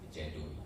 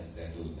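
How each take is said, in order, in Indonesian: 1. Kata ini diawali dengan bunyi j. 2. Kata ini diawali dengan bunyi z. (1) "tapi ternyata disebut Jadul" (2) "seharusnya Zadul"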